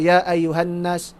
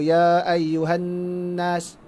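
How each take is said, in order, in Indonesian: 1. Huruf n yang digandakan tidak ada dengung sengau. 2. Huruf n yang digandakan ditahan dengan dengung sengau.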